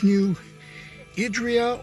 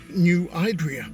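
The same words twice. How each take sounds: First: The name is said in a non-local pronunciation. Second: The name is said the way locals pronounce it.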